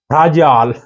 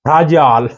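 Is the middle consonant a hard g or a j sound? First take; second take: j sound; j sound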